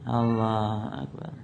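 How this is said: It is said limply and weakly.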